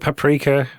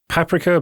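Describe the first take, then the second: First: The word is said with an English pronunciation. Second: The word is said with a German pronunciation. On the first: The speaker calls it right. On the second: The speaker calls it wrong.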